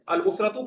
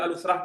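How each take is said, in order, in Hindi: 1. शब्द का आखिरी अक्षर पूरा बोला गया है। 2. शब्द आखिरी अक्षर के बिना, बीच में ही रुक जाता है। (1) "अल उसरा तू कहे" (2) "वक्फ करके भी कह सकते हैं"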